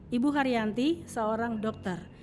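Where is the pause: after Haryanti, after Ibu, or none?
after Haryanti. There is a pause right after Haryanti. Ibu Haryanti is the one who is a doctor. "Kita ingin mengatakan bahwa Ibu Haryanti adalah seorang dokter"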